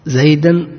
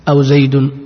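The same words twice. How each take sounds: First: زيدا said "zaydan" with the -an ending; accusative ending. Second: زيد said "zaydu" with the -u ending; nominative ending. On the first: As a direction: mark the -an on زيدا. (زيدا منصوبا بتنوين الفتح) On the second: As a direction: mark the -u on زيد. (زيد مرفوعا بالضمة) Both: Shown as a demonstration. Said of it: "نأخذ أمثلة".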